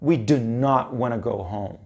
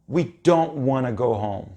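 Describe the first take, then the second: First: It is said emphatically, with full forms. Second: It is said plainly, with the contraction.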